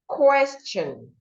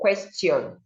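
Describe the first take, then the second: First: The t is said as a ch sound. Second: The t is not said as ch. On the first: The speaker calls it right. "the T here makes the sound, ch" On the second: The speaker calls it wrong. "not question"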